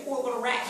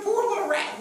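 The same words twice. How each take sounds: First: Said in the usual way. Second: High, pitying coo; mock pity. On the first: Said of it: "When are you gonna say". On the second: Congregation's imagined pity for the rat, cooed high. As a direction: put on a sugary pity for the rat. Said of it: "You're like".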